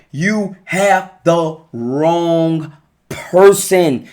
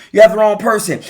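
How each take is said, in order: First: Each word drawn out slowly and pressed home; slow, weighty. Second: Said in the usual way. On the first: Real, not acted. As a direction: lay it down slowly so it sinks in. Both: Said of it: "I'm telling you".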